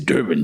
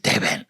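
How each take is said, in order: First: Durban is said with an American pronunciation. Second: Durban is said with a South African pronunciation. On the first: The speaker is a foreigner from America. The speaker calls it wrong. "If you say Durban, they know you're from America" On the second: The speaker sounds like a local. The speaker calls it right. "You must say Durban"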